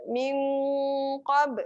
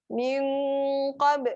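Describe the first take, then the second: No difference in how they are said.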